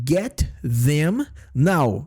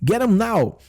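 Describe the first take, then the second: First: The word them is said fully and slowly. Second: The word them is reduced to a quick 'em. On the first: "ou seja" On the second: "quando a gente fala bem rápido"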